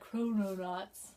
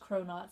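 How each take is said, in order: First: The word is said with three full syllables. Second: The word is shortened to two syllables. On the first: The speaker calls it right. "I'm gonna call it Chrononauts" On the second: The speaker calls it wrong. "I know that's not how you pronounce it"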